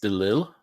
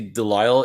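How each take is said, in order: First: The name is pronounced the French way. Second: The name is pronounced the English way. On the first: "In French, it's Delille" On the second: "in English you'd say Delisle"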